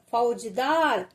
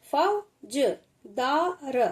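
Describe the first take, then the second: First: Said in the usual way. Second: फौजदार drawn out very slowly, syllable by syllable; slow teacher demo; slow sounding-out. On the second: Shown as a demonstration. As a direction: stretch फौजदार for a child. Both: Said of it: "teacher sounds out word".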